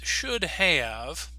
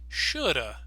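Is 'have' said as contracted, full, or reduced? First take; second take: full; reduced. First: Both words are said in full. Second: 'Have' is reduced to a weak uh sound.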